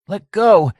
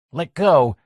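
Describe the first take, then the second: First: A high, loud shriek. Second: Raised, higher, firmer demand; Mike's first firm demand to let go. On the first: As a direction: shriek it at him, desperate. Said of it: "shrieked Mike". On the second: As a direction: tell him to let go, firmly. Mike struggling with Lenny at wheel. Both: A narrator's reading.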